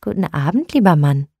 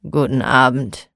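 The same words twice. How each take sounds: First: Kindly greeting a stranger; friendly. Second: Low, sullen mutter; grumpy grumble. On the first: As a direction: greet him gently and warmly. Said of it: "sagte freundlich". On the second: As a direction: grumble it without looking up. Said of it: "Der Mann brummte mürrisch". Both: Acted.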